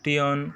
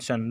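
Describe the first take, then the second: First: The ending is said as two syllables, tee-on. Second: The ending is said as one syllable, shun. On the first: The speaker calls it wrong. "இந்த வேர்டை நம்ம என்ன செய்யக்கூடாது டியோன்" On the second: The speaker calls it right. "ஷன் ஷன் தான் வாசிக்கணும்"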